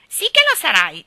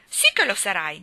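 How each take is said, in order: First: High, loud mocking child; mimicking echo. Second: Firm, louder, pitch unmoved; insist, completely unruffled; imperturbable. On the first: Geraldine echoes Ivy to tease, mocking high voice. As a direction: parrot it back loud and high. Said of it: "disse Geraldine". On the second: Ivy tells Gerald he will be her fiancé, unruffled. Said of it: "disse Ivy imperturbabile". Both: A narrator's reading.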